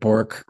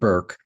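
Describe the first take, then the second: First: The vowel sounds like 'or' in 'fork'. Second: The vowel sounds like 'er' in 'her'. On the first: The speaker calls it wrong. "I've been calling it Bork for a dozen times" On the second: The speaker calls it right. "she pronounces it Burke"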